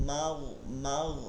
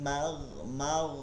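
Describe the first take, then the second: The two takes are said the same way.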